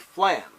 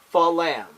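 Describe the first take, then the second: First: The word is said as one quick syllable. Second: The word is split into two syllables. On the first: The two sounds are close together. The speaker calls it right. "You say flam" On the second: The two sounds are too far apart. The speaker calls it wrong. "That's wrong"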